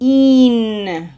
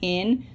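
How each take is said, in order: First: The syllable is said with a Spanish vowel. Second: The syllable is said with an English vowel. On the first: The speaker calls it right. "this is in" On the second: The speaker calls it wrong. "the English habit of saying in. Okay, this is not in"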